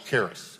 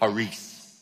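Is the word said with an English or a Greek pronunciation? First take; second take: English; Greek. First: The word has an English pronunciation. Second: The word has a Greek pronunciation. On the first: "That's our English pronunciation" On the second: "Greek would be charis, like that"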